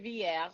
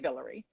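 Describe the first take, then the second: First: The name is said the standard French way. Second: The name is said the New Orleans way. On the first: "which would be the standard French pronunciation" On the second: "New Orleans people would say Villery"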